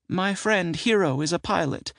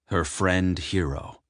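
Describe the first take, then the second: First: High aunt voice, Hero said trustingly; proud of her friend Hero; woman voice. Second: Said in the usual way. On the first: Acted. Sybil voiced, narrator then echoes.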